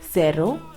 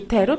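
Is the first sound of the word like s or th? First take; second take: s; th. First: The word begins with an s sound. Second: The word begins with a th sound. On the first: This is how it is said in Latin America. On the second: This is how it is said in Spain.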